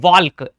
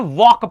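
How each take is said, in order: First: The L sound is pronounced. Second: The L sound is silent. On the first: The speaker calls it wrong. "ना कि वॉल्क" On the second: The speaker calls it right. "वॉक पढ़ते हैं"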